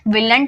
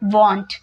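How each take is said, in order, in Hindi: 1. यह 'will' और 'n't' मिलाकर बोला जाता है। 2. यह एक ही सिलेबल में बोला जाता है, 'wohnt'। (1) "विलंट मत बोलिएगा" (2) "विल नॉट को वॉन्ट बोलते हैं"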